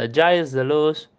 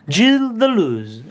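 First: The name is read with Spanish sounds. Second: The name is read with French sounds. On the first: The speaker calls it wrong. "que no es Giles de Luz" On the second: The speaker calls it right.

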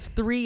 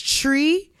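First: The word starts with a 'th' sound. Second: The word starts with a plain 't' sound. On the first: "instead of three" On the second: "they don't pronounce the TH"

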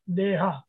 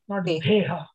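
First: The first consonant is a plain, unaspirated d. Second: The first consonant is an aspirated dh. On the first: The speaker calls it right. "Where is dha in it?" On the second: The speaker calls it wrong.

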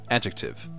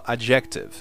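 First: It is said the standard English way. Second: It is said like the Portuguese word. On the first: The speaker calls it right. "mas não é assim, é adjective" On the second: The speaker calls it wrong. "por ter essa pronúncia em português, adjetivo, muitos pensam que se fala adjective"

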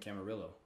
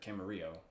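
First: The name is said the usual outsider way. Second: The name is said the local way.

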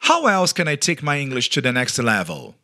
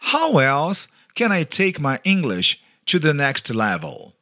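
First: It is said at normal speed. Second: It is said slowly.

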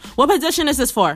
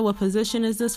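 First: The question is asked in a rude tone. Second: The question is asked in a neutral tone. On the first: The caller is unwelcome and bothering them. "they'll be doing it very rudely" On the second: A routine question is being asked. "they'll say the basic"

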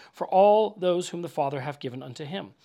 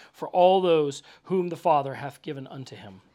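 No difference in how they are said.

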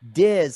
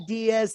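First: The surname is said with one syllable. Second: The surname is said with two syllables. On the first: The speaker calls it right. "it's Jacob Diz" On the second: The speaker calls it wrong. "Don't say Diaz"

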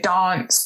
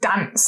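First: It is said in a southern English accent. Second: It is said in a northern English accent. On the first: "their southern pronunciations" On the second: "I would say sort of dance"

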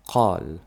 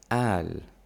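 First: It begins with a deep q sound. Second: It begins with a glottal stop.

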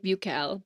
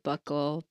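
First: The word is pronounced the French way. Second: The word is pronounced the American way. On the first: "In France, they say buccal" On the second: "But in America, I've heard buccal"

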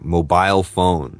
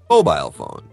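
First: The stress in mobile is on the second syllable. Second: The stress in mobile is on the first syllable. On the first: The speaker calls it wrong. "I often hear people say" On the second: The speaker calls it right. "But it actually should be"

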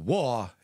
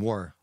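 First: The final R is dropped, Southern style. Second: The final R is clearly pronounced.

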